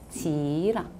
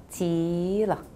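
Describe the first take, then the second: Both takes have the same delivery.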